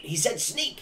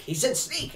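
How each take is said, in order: First: Very high squeaky goblin, rising on Sneak; a goblin urgently reminding the others; excited goblin. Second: Even higher squeaky goblin insisting on Sneak; more frantic goblin. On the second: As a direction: push the goblin pitch further up. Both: Acted. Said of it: "he goes".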